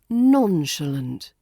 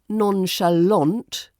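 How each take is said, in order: First: The stress falls on the first syllable. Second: The stress falls on the final syllable. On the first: The speaker calls it right. "The stress is on the first syllable" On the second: The speaker calls it wrong. "it's not nonchalant, like a dramatic French film villain"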